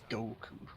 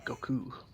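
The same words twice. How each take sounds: First: The stress is on the first syllable. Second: The stress is on the second syllable. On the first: This is the English dub pronunciation. "in the dub they put more emphasis on the go part" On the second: This is the original Japanese pronunciation. "you're supposed to put more emphasis on the ku than the go"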